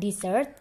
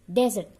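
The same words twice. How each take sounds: First: "dessert" with an EE-like first vowel, dee-ZERT; "dessert" as the sweet course, di-ZERT; wrong reading, dessert. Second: "Desert" stressed on the first syllable, DEZ-ert; a loud, clear model of "Desert" as DEZ-ert; desert, not dessert. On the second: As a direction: punch out "Desert" loudly, opening with a short DEZ. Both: Shown as a demonstration. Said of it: "Bacanya bukan dessert".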